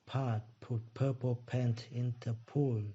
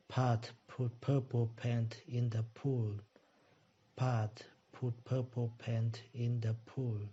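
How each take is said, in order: First: Pat put purple paint in the pool, said slowly, each P aspirated; slow repeat after teacher. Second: Pat put purple paint in the pool, slow, with the stress on Pat; a slow practice take leaning on Pat; slow drill. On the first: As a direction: drill it slowly, word by word. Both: Shown as a demonstration.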